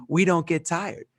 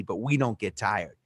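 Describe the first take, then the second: First: Retold proud declaration, lifted above the first; emphatic declaration. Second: Said in the usual way. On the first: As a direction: declare it with conviction. Retold repeat, declared with more conviction.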